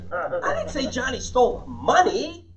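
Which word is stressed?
money. The stress is on money.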